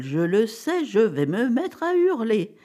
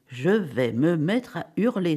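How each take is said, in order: First: Higher, slow, rising toward hysteria; mounting inner dismay. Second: Slow, measured thought before a scream; contained inner dismay. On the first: Wife alone in her thoughts, mounting dismay. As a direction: let the held-back scream start to build. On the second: Wife recoiling from the fur, contained dismay. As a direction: say it slowly to yourself, holding back. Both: A narrator's reading. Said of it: "se dit-elle".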